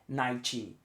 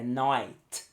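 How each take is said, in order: First: The final T is clearly and fully released. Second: The final T is almost silent. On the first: The speaker calls it wrong. "não é night, night" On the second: The speaker calls it right. "é night. T. É um T quase mudo"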